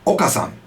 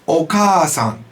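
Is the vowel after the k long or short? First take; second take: short; long. First: The vowel after the k is kept short. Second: The vowel after the k is held long. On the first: It means Mister Oka. "If you didn't say the double sound in Japanese" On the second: It means mother. "All that means is we lengthen the sound"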